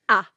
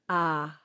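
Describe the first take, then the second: First: The vowel starts with an abrupt glottal catch. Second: The vowel starts smoothly without a glottal catch. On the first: The speaker calls it wrong. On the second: The speaker calls it right.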